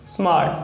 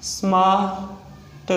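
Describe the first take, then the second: First: Said in the usual way. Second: smart split into "smaa", pause, "t"; sounded out slowly. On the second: Shown as a demonstration. Teacher breaking down a shorthand example, sounded out slowly. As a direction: stretch smart, detaching the final t.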